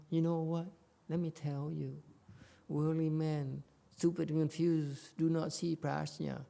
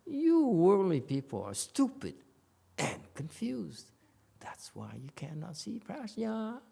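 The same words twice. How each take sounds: First: Softer, slightly raised, tentative voice; hesitant soft-pedalling. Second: High, emphatic denouncing, slowing on CONFUSED; condemnation. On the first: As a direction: break it gently, as if hedging. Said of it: "It's not like". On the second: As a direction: condemn them, punching YOU and STUPID. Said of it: "No, this is a condemnation". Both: Shown as a demonstration.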